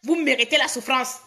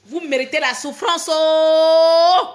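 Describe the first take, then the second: First: Said in the usual way. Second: Indignant wail held at full volume; loud drawn-out cry. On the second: Real, not acted. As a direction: end on a long, held, loud "oh". Repeats the curse, wailing it out.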